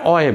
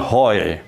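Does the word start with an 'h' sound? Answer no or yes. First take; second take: no; yes. First: The word starts directly with a vowel. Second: The word starts with an 'h' sound. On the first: The speaker calls it right. "Ini bacanya oi" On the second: The speaker calls it wrong. "bukan hoi"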